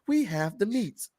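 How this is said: It is said in a gentler, nicer way.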